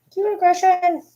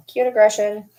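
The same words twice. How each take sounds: First: Very high squeal of affection; cute aggression. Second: Said in the usual way. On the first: Real, not acted. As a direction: squeal it like you could squeeze the dog.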